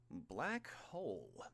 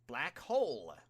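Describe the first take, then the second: First: Slow, offhand repeat of the attack name; conversational. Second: Loud, high battle cry of the attack; shouted attack name. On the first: Villain casually echoing the hero's attack, slow and offhand. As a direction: say it idly, as if chatting. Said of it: "Kurogiri said conversationally". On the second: Hero yelling her attack at the villain, loud. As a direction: call out the attack name at full voice. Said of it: "the pro hero cried". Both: A narrator's reading.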